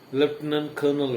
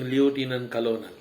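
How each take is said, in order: First: It is pronounced differently from how it's spelled. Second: It is pronounced letter by letter, as spelled. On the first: The speaker calls it right. "but you are pronouncing what?" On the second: The speaker calls it wrong. "spelling may be driving you, I mean directing you to pronounce"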